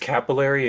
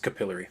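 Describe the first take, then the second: First: It is said with an American pronunciation. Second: It is said with a British pronunciation. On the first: "in America, it's capillary" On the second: "In England, it's capillary"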